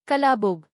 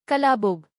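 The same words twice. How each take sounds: The two takes are said the same way.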